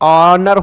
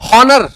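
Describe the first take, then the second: First: The word starts with a vowel, no h. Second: The word starts with an h sound. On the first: The speaker calls it right. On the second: The speaker calls it wrong.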